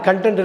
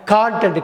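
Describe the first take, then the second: First: கண்டென்ட் as 'kun-TENT'; wrong short-vowel pronunciation. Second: கான்டென்ட் as 'KAAN-tent'; correct long-vowel pronunciation. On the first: (கண்டென்ட் - 'க' குறில் ஒலி) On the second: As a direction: open wide on a long 'kaa' in கான்டென்ட். (கான்டென்ட் - 'கா' நெடில் உச்சரிப்பு) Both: Shown as a demonstration. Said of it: "கண்டென்ட் இல்ல".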